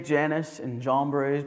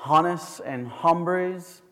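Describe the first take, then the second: First: The names are pronounced the plain English way. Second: The names are pronounced the Hebrew way. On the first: The speaker calls it wrong. "you could say" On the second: The speaker calls it right. "the proper way to say it ... the Hebrew way of saying it"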